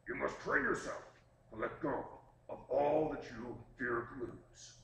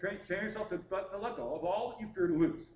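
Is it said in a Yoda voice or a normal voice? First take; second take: Yoda voice; normal voice. First: It is said in an imitated Yoda voice. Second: It is said in the speaker's normal voice.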